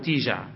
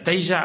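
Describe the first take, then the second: First: The first syllable is said with an i vowel. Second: The first syllable is said with an a vowel. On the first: "وكساها" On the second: "تقال بفتح التاء"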